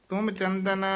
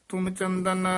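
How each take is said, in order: No difference in how they are said.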